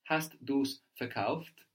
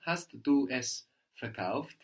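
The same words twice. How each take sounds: First: Slow, du's as one syllable; contracted du's. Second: Said in the usual way. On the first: Shown as a demonstration. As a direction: run du es together into du's. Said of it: "you could also hear with the contraction". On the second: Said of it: "Or you could also hear with the contraction".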